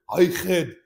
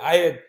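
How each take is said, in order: First: The h in 'had' is clearly pronounced. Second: The h in 'had' is dropped. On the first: "he did not say" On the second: "he said"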